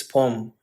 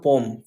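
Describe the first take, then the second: First: "poem" said as POH-um, two syllables; "poem" split lightly, poh-um; corrected poem. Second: "poem" said as POME, one syllable; "poem" rhyming with home; mispronounced poem. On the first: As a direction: add a weak um to "poem". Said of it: "It's poem". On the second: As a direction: shut "poem" straight into the m. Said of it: "It's not poem". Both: Shown as a demonstration.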